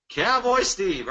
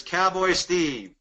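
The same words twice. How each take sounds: First: Slow, drawn-out Texan cowboy drawl on Cowboy Steve; cowboy accent. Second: Said in the usual way. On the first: Shown as a demonstration. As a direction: stretch out Cowboy Steve like a Texas cowboy. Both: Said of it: "I gotta do that accent".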